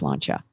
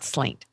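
First: The word ends with a 'cha' sound. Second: The word ends with a 't' sound. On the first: The speaker calls it right. "it's pronounced slancha" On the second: The speaker calls it wrong. "It's not slaint"

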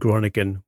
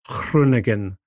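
First: The name is said with an anglicised pronunciation. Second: The name is said closer to Dutch pronunciation. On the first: The speaker calls it wrong. "which is the way that most people say that in this country" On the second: The speaker calls it right. "I commend Mr. Castles for his pronunciation of Groningen"

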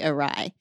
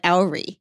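First: It sounds like 'uh-RYE', ending like 'rye'. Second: It sounds like 'OW-ree', rhyming with 'dowry'. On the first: The speaker calls it right. "that word is actually awry" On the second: The speaker calls it wrong. "every time something went askew, it went owry"

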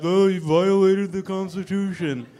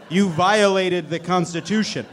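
First: It is said in a mocking funny voice. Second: It is said plainly in a normal voice.

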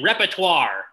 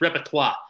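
First: It is said with a plain American pronunciation. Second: It is said with a haughty French-style pronunciation. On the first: The speaker calls it wrong. "It's not like me saying repertoire. That's how I say it for some strange reason" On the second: The speaker calls it right. "You got to say it like it's a French word. You got to say it with some stuck-upness"

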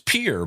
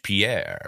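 First: The name is said like the English word peer. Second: The name is said with a French pronunciation. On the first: This is how locals in South Dakota say the city's name. "no South Dakota cowboy is going to go around saying Pierre. So it's Pierre" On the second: This is the name as the French say it. "it's spelled like the French Pierre"

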